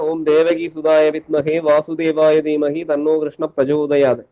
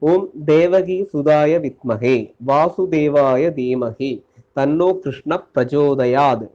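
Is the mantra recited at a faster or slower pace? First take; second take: faster; slower. First: It is recited at a quicker, normal pace. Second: It is recited slowly and deliberately.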